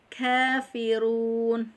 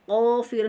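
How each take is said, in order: First: The first consonant is light with flowing breath. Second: The first consonant is heavy and deep. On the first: The speaker calls it right. "tapi kafirun, tipis dan mengalirnya nafas" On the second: The speaker calls it wrong. "bukan qafirun"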